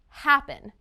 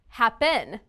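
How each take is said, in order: First: The stress is on the first syllable. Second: The stress is on the second syllable. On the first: "It's the first syllable" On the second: "if the second syllable has stress"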